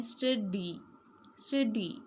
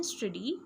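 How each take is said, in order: First: "स्टडी" broken into two beats, stud-dee; split into syllables. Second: Said in the usual way. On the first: Shown as a demonstration. Teacher showing two syllables, "स्टडी" split as stud-dee. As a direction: say "स्टडी" syllable by syllable, with a small gap. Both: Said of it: "हम कैसे बोलते हैं".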